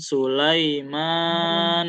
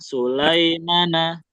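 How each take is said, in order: First: The long vowel is stretched far too long. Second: The long vowel is not lengthened at all. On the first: "Jangan baca kepanjangan" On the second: "Jangan juga nggak dibaca panjang"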